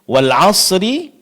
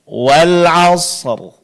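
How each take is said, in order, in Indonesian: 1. Setelah r terakhir ada bunyi vokal. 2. R terakhir jelas, tanpa vokal. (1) "Kesalahan yang terjadi adalah sering kita mengabaikan huruf sukun yang kedua" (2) "seharusnya kita baca wal asr"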